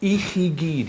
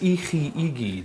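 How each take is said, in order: First: The words run together with no separate 'i'. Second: A separate 'i' is said before 'gyd'. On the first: "you said" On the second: "but there's I chi, I gyd"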